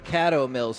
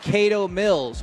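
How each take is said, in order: First: The name gets a fancier, refined pronunciation. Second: The name gets a plain, everyday pronunciation.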